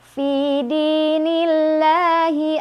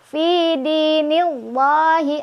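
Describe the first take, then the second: First: The L is thin, with the tongue flat. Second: The L is heavy, with the tongue root raised. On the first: The speaker calls it right. "maka ini dibaca tipis, lidah datar" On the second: The speaker calls it wrong. "nah itu salah ya. Nggak usah diangkat pangkal lidahnya"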